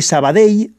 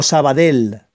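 First: Sabadell ending in a y glide, like "sa-ba-dey"; correct Valencian Sabadell. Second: Sabadell ending in a plain l sound, like "del"; mispronounced Sabadell. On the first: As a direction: say the final ll of Sabadell as a y. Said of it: "se pronuncia Sabadell". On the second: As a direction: say Sabadell with a simple Castilian L at the end. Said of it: "Eso es incorrecto". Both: Shown as a demonstration.

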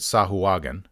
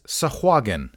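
First: "Sahuagin" spread over four syllables; sah-hoo-AH-gin, every vowel sounded; mistaken pronunciation. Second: "Sahuagin" in three syllables, hard g; suh-HWAH-gin, stress in the middle; correct pronunciation. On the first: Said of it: "I probably have pronounced it". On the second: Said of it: "it is Sahuagin". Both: Shown as a demonstration.

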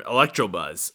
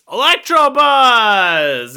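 First: Said in the usual way. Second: Electrobuzz! yelled high, loud and stretched out slowly; excited shout. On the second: Acted. Remembering the name of his card, yelling Electrobuzz! high, loud and slow. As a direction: cry out Electrobuzz! like a triumphant discovery. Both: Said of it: "It's Electrobuzz".

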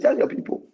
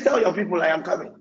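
First: Breathy whisper, unvoiced and hushed; whispered quote. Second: Said in the usual way. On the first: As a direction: hush it like a secret from God. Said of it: "He said". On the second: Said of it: "He says".

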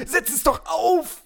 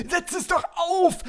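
First: "auf" drawn out and stressed; high, slow, weight on "auf". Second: "doch" pushed high and long; high, slow, weight on "doch"; stress on doch. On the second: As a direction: lean into "doch", coaxing. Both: Shown as a demonstration.

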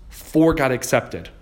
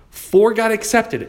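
First: Said in the usual way. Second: "Four" high and drawn out; emphatic repeat. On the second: Real, not acted. Telling how many offers succeeded, "Four" stressed high and long. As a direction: hit "Four" high, stretching it in amazement.

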